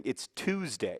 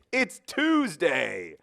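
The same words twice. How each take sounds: First: Said in the usual way. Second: "Tuesday" stretched out, very slow and higher; "Tuesday" held long and high as mock news; mock grand announcement. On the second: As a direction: drag out "It's Tuesday" like a sarcastic proclamation. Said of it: "And I would be like".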